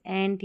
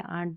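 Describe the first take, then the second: First: 'एंट' with the a of 'cat'; front-vowel variant. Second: 'आंट' with a long open aa; long-vowel variant. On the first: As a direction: say the ending 'एंट', like the insect ant. ('एंट' को ऐ जैसे स्वर से बोलें) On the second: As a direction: broaden the ending to 'आंट'. ('आंट' को लंबे आ से बोलें) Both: Shown as a demonstration. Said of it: "दोनों तरीके से इस पैटर्न".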